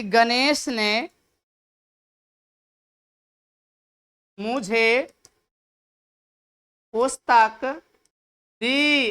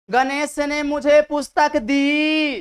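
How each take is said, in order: First: Ganesh ने मुझे पुस्तक दी slowly, word by word, long pauses; weight each word of Ganesh ने मुझे पुस्तक दी separately; sentence stress, dictated. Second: Ganesh ने मुझे पुस्तक दी as one slow, sustained line ending on a long दी; sentence stress. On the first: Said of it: "वाक्य में भी पता चल रहा है". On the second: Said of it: "तो ये वाक्य वाला घात हो गए". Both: Shown as a demonstration.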